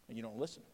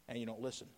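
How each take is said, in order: No difference in how they are said.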